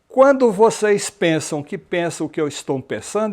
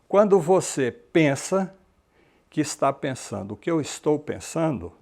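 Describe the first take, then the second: First: It is said at a normal, quick pace. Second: It is said slowly, with more pauses.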